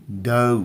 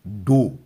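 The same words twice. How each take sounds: First: डो as a gliding "dou"; डो stretched into a diphthong, doh-oo; correct vowel. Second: डो as a long pure "doo"; डो without any glide, like Hindi doo; wrong vowel. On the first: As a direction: say डो like English "dough", with a glide. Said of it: "डो पढ़ेंगे". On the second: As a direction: say डो with one unglided rounded vowel. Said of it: "डो नहीं पढ़ेंगे". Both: Shown as a demonstration.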